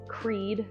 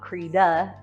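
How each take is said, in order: First: The name is said as one syllable. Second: The name is said as two syllables. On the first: The speaker calls it right. "it's good to know it's Creed" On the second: The speaker calls it wrong. "not Creda"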